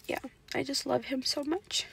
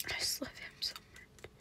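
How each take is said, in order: First: Said in the usual way. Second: Much softer, breathless whispered sob; crying whisper. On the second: Real, not acted. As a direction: whisper it as tears take over. Crying over Job's story.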